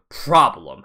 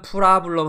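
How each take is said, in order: First: It is said with a native English accent. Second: It is said with a Korean-style accent. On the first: The speaker calls it right. "프라블럼 합니다" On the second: The speaker calls it wrong. "원어민들은 프라블럼 하지 않아요"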